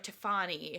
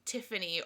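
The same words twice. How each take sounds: First: The name is said in a fancy way. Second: The name is said in a plain way.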